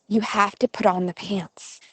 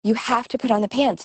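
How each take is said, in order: First: Mother's firm but restrained instruction; retold mother, patience still intact; trying to be patient. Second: Mother's quick, higher-pitched insistence; retold mother getting mildly exasperated; getting worked up. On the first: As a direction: hold it in, say it evenly. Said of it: "she's trying to be patient". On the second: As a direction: rush it out, patience slipping. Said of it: "she's getting all worked up".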